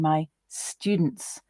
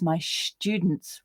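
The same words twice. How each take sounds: First: The first sound of students is s. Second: The first sound of students is sh. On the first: "rather than" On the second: "pronounce the letter S as a sh sound"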